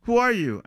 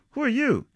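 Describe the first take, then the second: First: High, loud challenge trying to sound scary; would-be scary high yell; acted scream. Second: High-pitched echo of a frightened challenge; mimicking another's high voice and accent; mocking mimicry. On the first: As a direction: scream it shrilly at a closed door. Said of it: "I scream at the bedroom door at the top of my lungs". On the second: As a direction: parrot the scream back teasingly. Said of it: "He mimes my voice and accent and smiles". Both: A narrator's reading.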